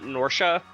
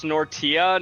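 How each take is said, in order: First: The middle consonant is an sh sound. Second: The middle consonant is a hard T. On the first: The speaker calls it wrong. "not a sh sound" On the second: The speaker calls it right. "it's a hard T"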